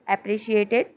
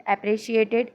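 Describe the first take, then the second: The two takes are said the same way.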